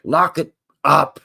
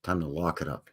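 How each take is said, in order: First: Slow, louder drawn-out call; mock announcer. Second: Said in the usual way. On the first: Shown as a demonstration. Host closing the show, slow louder announcer call. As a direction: announce the sign-off like a slogan.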